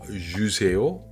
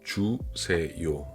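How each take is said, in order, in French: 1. Ça se prononce avec un accent de francophone. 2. Ça se prononce avec un accent coréen natif. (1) "les francophones vont dire juseo" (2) "mais c'est plutôt 주세요"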